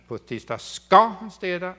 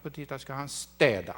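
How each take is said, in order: First: "ska" punched high and loud; stress on SKA. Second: Final word "städa" emphasized; stress on STÄDA. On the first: Lecturer demonstrates the actor's stressing task, stress on "ska". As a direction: hit the word "ska" hard, drawing it out. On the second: Lecturer demonstrates the actor's stressing task, stress on "städa". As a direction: save the weight for the first syllable of "städa". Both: Shown as a demonstration. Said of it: "stressing the, this syllable".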